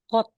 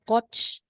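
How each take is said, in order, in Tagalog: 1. Nagtatapos ang salita sa payak na tunog na 't'. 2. Nagtatapos ang salita sa tunog na 'ch'. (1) "magiging kot" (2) "di na siya koch"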